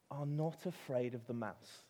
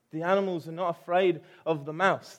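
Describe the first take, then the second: First: "not" leaned on, said at normal level; stress on not. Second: "afraid" stressed, the line much louder and higher; emphatic repeat. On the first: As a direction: set up the point calmly, weight on "not". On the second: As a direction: hammer the point home to the congregation. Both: Shown as a demonstration.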